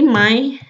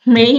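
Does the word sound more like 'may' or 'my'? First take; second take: my; may. First: It is said with a Stockholm-style vowel. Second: It is said with a southern Swedish vowel. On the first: "kalau di Stockholm atau ne region lain kita bilangnya Maj" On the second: "Mei ini kalau di, mmm, Skånsk atau di Swedia Selatan"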